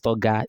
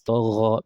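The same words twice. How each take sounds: First: It has a hard g sound. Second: It has a throaty, gargled gh sound. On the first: The speaker calls it wrong. "It's not toga" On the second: The speaker calls it right. "it's toga because the letter itself is ra"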